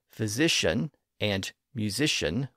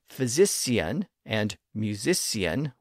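First: The middle consonant is an SH sound. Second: The middle consonant is an S sound. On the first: This is the newer pronunciation. "with their SH sounds" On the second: This is the older pronunciation. "with their S sounds"

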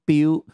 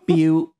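First: The word ends with a U vowel. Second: The same.

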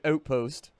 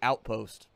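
First: The word is said with a Canadian accent. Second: The word is said with an American accent. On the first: The speaker is really Canadian. "Why did he say outpost like he's Canadian?" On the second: The speaker is a Montana native. "He didn't say outpost. There's a difference"

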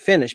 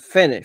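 First: The first vowel is short and lax. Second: The first vowel is drawn out and long. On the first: The speaker calls it right. "بین ای و ای. ... در نقش ای کوتاه" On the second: The speaker calls it wrong. "finish نگی"

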